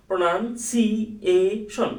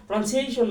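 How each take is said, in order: First: "প্রনাউন্সিয়েশন" split as pro-nan-si-e-shon; broken into syllables. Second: Said in the usual way. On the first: Shown as a demonstration. Teacher offering a learner an easier way, syllable by syllable. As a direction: say "প্রনাউন্সিয়েশন" piece by piece, stretching si and e. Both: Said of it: "না বলে আপনি বলেন".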